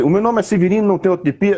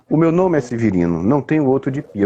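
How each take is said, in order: First: Higher, with a lively rising tune; wrong way. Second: Unhurried introduction. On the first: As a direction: sing it out too brightly, the way it shouldn't go. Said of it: "Ele não vai falar assim". (jeito errado, mais agudo e subindo) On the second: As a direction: let it walk, a man calmly presenting himself. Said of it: "o ritmo aqui é devagar". (ritmo pausado, se apresentando) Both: Shown as a demonstration.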